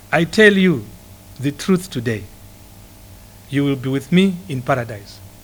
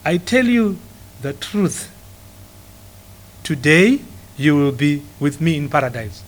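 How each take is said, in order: First: The pause comes after the word today. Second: The pause comes before the word today.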